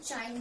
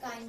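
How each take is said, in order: First: The word begins with a 'ch' sound. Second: The word begins with a 'k' sound. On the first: "इसको हम चाइन भी बोलते हैं" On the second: "या काइन भी pronounce करते हैं"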